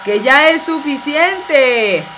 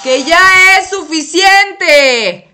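First: Slow and louder, calling over noise; firm call over a loud hair dryer; raised voice. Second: Very slow, loud and high shout; shouting over the blaring dryer; full shout. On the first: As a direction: make yourself heard over the dryer. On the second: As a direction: yell so he finally hears. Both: Acted. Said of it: "pero no me grites".

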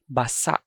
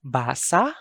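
First: Basa as ba-SA', both vowels short; short, stopped basa. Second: Basa as BAA-sa, open rising end; long first syllable in Basa. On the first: Teacher recaps the word for wet, basa short and stopped. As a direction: cut off the final vowel of "basa". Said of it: "means wet". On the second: Teacher recaps the word for read, Basa with long BAA. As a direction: stretch the first vowel of "Basa". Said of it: "means to read". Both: Shown as a demonstration.

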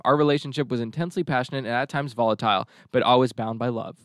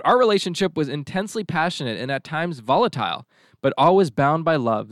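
First: Sceptical second reading; pointed reread. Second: Said in the usual way. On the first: Shown as a demonstration. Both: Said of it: "I'll read it one more time".

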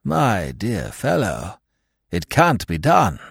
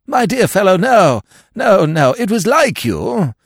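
First: Slow, gentle, pitying; kindly old lord turning down a mad idea. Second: Higher and louder, hearty bluster; hearty old lord waving off the offer; vague heartiness. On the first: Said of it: "peer at this visionary with a gentle pity". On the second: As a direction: brush him off with booming cheer. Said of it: "said his lordship with a vague heartiness". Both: A narrator's reading.

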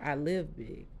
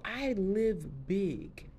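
First: Said in the usual way. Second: "I live big" stretched very slowly, each word weighted; with bass. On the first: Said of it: "I say it with a little bit of bass in my voice". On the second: Shown as a demonstration. Quoting her Instagram motto, slow and weighty. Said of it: "with a little bit of bass in my voice".

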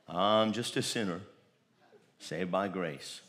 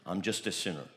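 First: Lower, softer, slow mock whine; meek self-pity. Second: Meek self-pity. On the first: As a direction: mimic a defeated believer, dropping to a mumble. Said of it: "Never ever say again". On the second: Retold or imitated. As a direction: lower and softer mock mumble.

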